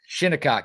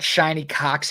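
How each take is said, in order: First: The first syllable is said as 'shin'. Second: The first syllable is said as 'shine'. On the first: The speaker calls it right. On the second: The speaker calls it wrong. "not Shiny Cox Hills"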